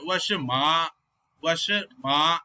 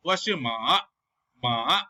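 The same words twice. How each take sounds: First: "ma" in "Washi ma" held level; "ma" sustained on an even pitch; straight first tone. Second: "ma" in "Washi ma" dips and rises; "ma" with a dipping third tone; falling-rising tone. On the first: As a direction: keep ma long and straight, no dip. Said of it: "she needs to say straight tone". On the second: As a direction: let ma fall, then lift it. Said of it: "she is saying falling and rising tone". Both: Shown as a demonstration.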